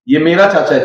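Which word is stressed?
मेरा. The stress falls on the word मेरा. He is my uncle, not yours. "तेरा नहीं है"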